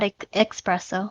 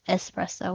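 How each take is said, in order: First: The first syllable has a k sound, ex. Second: The first syllable has a plain s sound, es. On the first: The speaker calls it wrong. "Please never say that" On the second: The speaker calls it right. "It's espresso with an S"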